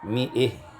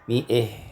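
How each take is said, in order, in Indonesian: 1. Vokal terakhir condong ke e. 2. Vokal terakhir condong ke e.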